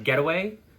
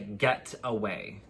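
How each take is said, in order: First: The T sound is soft and not emphasized. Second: The T sound is clearly emphasized. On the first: "Some ways she says it" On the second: "Like she's emphasizing the T"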